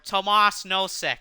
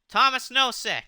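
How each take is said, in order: First: The first name is said the Czech way, Tomas. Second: The first name is said like English Thomas. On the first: The speaker calls it right. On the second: The speaker calls it wrong.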